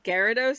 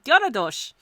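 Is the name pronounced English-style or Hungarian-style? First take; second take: English-style; Hungarian-style. First: The name is pronounced the usual English way. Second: The name is pronounced like a Hungarian word. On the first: "which is pronounced Gyarados as far as I know" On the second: "my familiarity with the Hungarian language, my brain sees it"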